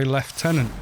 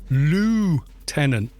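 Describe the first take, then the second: First: It is said with a British pronunciation. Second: It is said with an American pronunciation. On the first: "we say lieutenant" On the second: "apologising to Americans"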